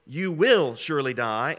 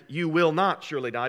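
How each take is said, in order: First: "will" punched louder than the rest; loud emphatic "will", then "surely die" eases off; stress on WILL. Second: "not" punched as the one changed word; "not" stands out above "surely die"; stress on NOT. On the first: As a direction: lean hard on "will" in "you will surely die". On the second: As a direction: hit "not" in "you will not surely die". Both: Shown as a demonstration. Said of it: "the only difference between those two phrases".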